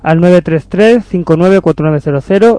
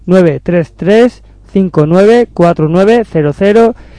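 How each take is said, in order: First: It is said at normal speed. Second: It is said a little more slowly.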